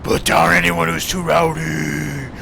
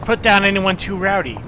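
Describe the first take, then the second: First: It is read in a put-on character voice. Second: It is read in a plain, natural voice.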